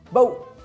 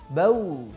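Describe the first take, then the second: First: The final w is pressed hard and forcefully. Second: The final w is said lightly and softly. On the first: The speaker calls it wrong. "terlalu kuat ketika waw itu sukun... terlalu menekan" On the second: The speaker calls it right. "harusnya lebih lembut... seperti itu"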